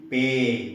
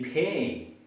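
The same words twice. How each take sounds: First: The p has no puff of air. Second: The p has a strong puff of air. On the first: The speaker calls it wrong. "we cannot say pay" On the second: The speaker calls it right. "they have to give past sound"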